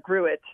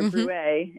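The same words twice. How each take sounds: First: The name is pronounced the English way. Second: The name is pronounced the French way.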